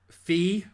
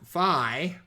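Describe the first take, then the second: First: It is said the European way. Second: It is said the American way.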